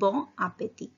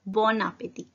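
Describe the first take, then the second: First: The n of the first word is silent. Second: The n is pronounced and linked to the next word. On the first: "यहाँ पे मैंने बॉन नहीं बोला है, एन silent है" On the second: "एन pronounce करेंगे, मिक्स होगा"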